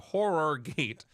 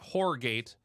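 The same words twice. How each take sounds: First: Horror is pronounced like the everyday English word. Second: Horror is pronounced unlike the everyday English word. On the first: The speaker calls it right. "but Horror Gate, like a scary movie" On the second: The speaker calls it wrong. "Not Horror Gate"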